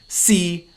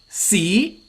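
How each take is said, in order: First: The syllable is said in the sixth tone. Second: The syllable is said in the second tone. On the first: It means be or is. "C means be or is" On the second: It means history. "C means history"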